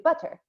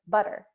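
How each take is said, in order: First: The middle consonant is a clear T sound. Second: The middle consonant is a soft D sound. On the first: Americans do not usually say it this way. "We don't say butter" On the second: This is the everyday American way of saying it. "we actually say a D sound"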